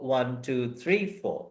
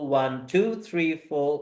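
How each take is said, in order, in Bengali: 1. বিট পড়ে তৃতীয় শব্দে। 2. বিট পড়ে দ্বিতীয় শব্দে। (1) "থার্ডটাতে গিয়ে বিট" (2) "সেকেন্ডটায় বিট"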